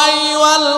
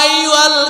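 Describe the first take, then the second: Both takes have the same delivery.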